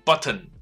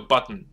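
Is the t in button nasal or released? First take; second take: released; nasal. First: The t is clearly released before the ending. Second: The t is swallowed into a nasal ending.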